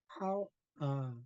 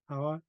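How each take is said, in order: First: A high syllable, a glottal catch, then a low one. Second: It is said quickly, run together without a break. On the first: The speaker calls it right. "when it's said correctly, you could hear three different things going on: the high tone, the glottal stop, and then the low tone" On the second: The speaker calls it wrong. "sometimes we say it fast and sloppy sloppy like this"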